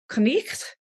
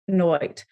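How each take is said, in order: First: It has an 'eh' vowel and a throaty sound. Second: It has an 'oy' vowel sound. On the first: This is the Old English pronunciation. "in Old English would have been more like Knecht" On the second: This is the pronunciation in Shakespeare's time. "by the time of Shakespeare, been pronounced more like Noit"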